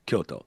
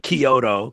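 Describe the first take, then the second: First: It is pronounced with Japanese-style pitch and sounds. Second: It is pronounced with English-style stress and sounds. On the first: The speaker calls it right. "because it's Kyoto" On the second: The speaker calls it wrong. "you don't say Kyoto"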